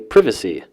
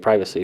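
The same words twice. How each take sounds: First: It is said with a British pronunciation. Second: It is said with an American pronunciation. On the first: "as the British say" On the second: "in the U S we say privacy"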